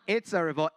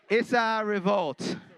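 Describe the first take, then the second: First: "It's a" is said as two separate words. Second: "It's a" is blended into one word, "issa". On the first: The speaker calls it wrong. "Not it's a revolt" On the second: The speaker calls it right. "It's I S S A"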